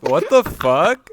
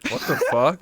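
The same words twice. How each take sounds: First: Loud, slow, laughing disbelief; shocked laughing disbelief. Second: Said in the usual way. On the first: Real, not acted. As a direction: stretch it out, stunned and laughing. Hearing of hypnosis blackmail.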